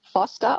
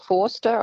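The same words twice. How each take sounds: First: "Foster" with a short open o; short-vowel pronunciation. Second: "Forster" with a long aw sound; long-vowel pronunciation. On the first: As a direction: say "Foster" as FOSS-ter. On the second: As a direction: say "Forster" as FAW-ster. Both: Shown as a demonstration. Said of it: "don't know how they pronounce it".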